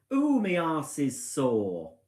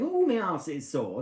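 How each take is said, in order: First: Drawn-out, slow moan; loud complaint. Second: A touch louder mock moan; lightly voiced husband moaning; imitating husband. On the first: Retold or imitated. Wife imitating husband leaving caravan, slow loud moan. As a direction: moan it slowly like a sore husband. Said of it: "says quite loudly". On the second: Wife retelling husband's complaint, mild mock moan. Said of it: "So he goes out the caravan saying".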